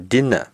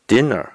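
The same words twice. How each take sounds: First: The final syllable has no r sound. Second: The final syllable ends with an r sound. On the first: This is the British form. "晚饭的英国英语叫dinner" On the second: This is the American form. "美国英语呢叫dinner"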